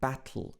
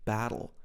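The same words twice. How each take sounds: First: The T is released straight into a tl sound. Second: The T is said in an American way. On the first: "he says something like battle, battle, tl" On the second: "the American English battle"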